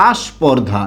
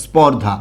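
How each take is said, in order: First: আস্পর্ধা with an added আ at the start; Barishal pronunciation. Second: Said in the usual way. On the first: Shown as a demonstration. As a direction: say আস্পর্ধা, opening with a short আ. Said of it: "সেটাকে আবার কি বলে বলুন তো?". (আঞ্চলিক উচ্চারণে আস্পর্ধা, শুরুতে বাড়তি আ) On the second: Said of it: "Barishal অঞ্চলের অনেক ভাই বোনেরা".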